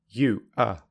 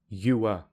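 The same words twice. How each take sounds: First: The two words are said separately. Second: The two words run together smoothly. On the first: "without linking" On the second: "with linking"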